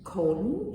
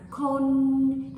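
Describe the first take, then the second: First: Said in the usual way. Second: "kon" higher, louder, slow and held; me'ek tone kon. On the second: Shown as a demonstration. Teacher showing me'ek on a word: raised "kon". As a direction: lift "kon" and hold it. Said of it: "If I put a me'ek on it, it becomes kon".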